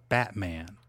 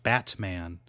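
First: The T is replaced by a glottal stop. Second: The T is clearly released. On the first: "You probably didn't hit the T when you said Batman. It's a glottal stop" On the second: "If you did that, then you were not applying the glottal stop"

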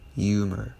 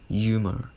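The two takes are said the same way.

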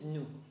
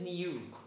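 First: It is said with the American pronunciation. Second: It is said with the standard pronunciation. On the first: "American pronunciation is new" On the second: "The standard pronunciation is new"

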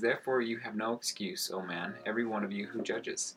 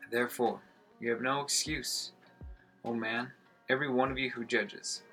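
First: It is read at a normal pace. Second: It is read slowly with space between phrases.

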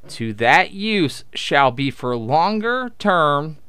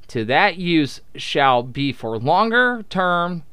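Both takes have the same delivery.

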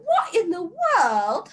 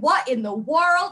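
First: It is said in a put-on British accent. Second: It is said in a plain American accent. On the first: Someone is mocking the remark. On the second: A sincere remark.

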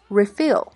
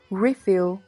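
First: The stress is on the second syllable. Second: The stress is on the first syllable. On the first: It is used as a verb. "它做动词时，重音在后，读作refill" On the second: It is used as a noun. "做名词时，重音在前，读作refill"

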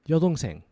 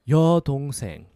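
First: It is said quickly. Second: It is said slowly.

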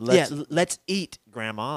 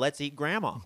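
First: There is a short pause before 'grandma'. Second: There is no pause before 'grandma'. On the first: The speaker is inviting grandma to eat. "There's a comma there" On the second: The speaker is proposing to eat grandma. "and if it's not there"

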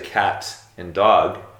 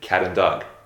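First: Each word is said separately with a clear T. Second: The words run together with a soft, linked T.

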